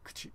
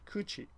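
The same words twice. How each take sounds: First: The u after k is silent. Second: The u after k is fully voiced. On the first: The speaker calls it right. "but it's really kuchi" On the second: The speaker calls it wrong. "some foreigners, I guess, will pronounce it kuchi"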